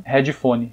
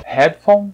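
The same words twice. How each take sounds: First: "headphone" as hed-ji-foni with added vowels; Brazilian headphone. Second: "Headphone" crisp, rising; English headphone. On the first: Teacher compares the two versions for students, Brazilian second. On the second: Teacher compares the two versions for students, English first. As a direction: clip "Headphone" short. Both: Shown as a demonstration.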